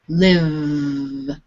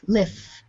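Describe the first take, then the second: First: The final consonant is voiced, with throat vibration. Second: The final consonant is unvoiced, without throat vibration. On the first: "pronounced from your throat. So it's a vibration" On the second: "sound F is in your mouth"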